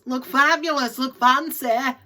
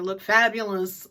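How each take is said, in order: First: Mock glamorous. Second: Said in the usual way. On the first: Vlogger mocking shoppers dressed up for an auction, hammed-up glam voice. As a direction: look fabulous said higher and louder in a posh put-on voice.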